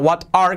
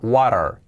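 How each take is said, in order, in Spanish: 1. La t se pronuncia como una t clara. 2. La t suena como una r suave. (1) "Que no sea what are" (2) "La T de what la hacemos con una R suave"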